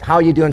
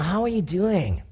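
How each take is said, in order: First: It is asked in an offhand, dismissive way. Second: It is asked in a warm, caring way.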